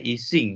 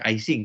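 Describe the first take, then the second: First: The name is pronounced the French way. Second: The name is pronounced the English way. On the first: "orang Prancisnya sendiri bilangnya Ising" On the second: "orang membaca bagi American atau British mungkin Ising"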